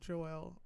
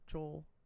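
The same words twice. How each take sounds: First: The name is said in a Caribbean accent. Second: The name is said in an American accent.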